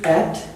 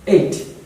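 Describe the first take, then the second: First: The vowel sounds like in cat. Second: The vowel sounds like in day. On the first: The speaker calls it wrong. "is pronounced mostly at, which is wrong" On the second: The speaker calls it right. "Eight, so basically looks like this"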